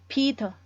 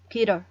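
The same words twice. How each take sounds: First: The middle t is a crisp t sound. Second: The middle t is a quick flap, like d. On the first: "Kalau untuk British itu Peter" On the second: "Sementara untuk American Peter"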